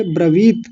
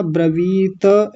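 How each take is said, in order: First: ब्रवीत as bra-VEET, stopping on the T; correct closed T. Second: ब्रवीत ending in a vowel, bra-VEE-TA; wrong full TA. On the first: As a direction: cut ब्रवीत off on a half T. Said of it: "ऐसा बोलेंगे". (ब्रवीत का 'त' आधा, ब्र-वीत्) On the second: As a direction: add an A after the final T of ब्रवीत. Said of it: "ऐसा नहीं बोलेंगे". (ब्रवीत का 'त' पूरा, ब्र-वी-त) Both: Shown as a demonstration.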